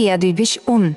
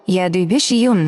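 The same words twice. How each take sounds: First: "উন" started straight on the vowel, "un"; mistaken pronunciation demo. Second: "ইউন" begun with a clear y glide, "yun"; correct glide pronunciation. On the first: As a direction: say "উন" as un, dropping the initial y glide. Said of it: "উন নয়". ("উন"-এর শুরুতে ই-ধ্বনি বাদ দিয়ে ভুল উচ্চারণ) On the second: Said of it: "এটা মনে রাখবেন". ("ইউন"-এর শুরুতে স্পষ্ট ই-য় ধ্বনি দিয়ে উচ্চারণ) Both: Shown as a demonstration.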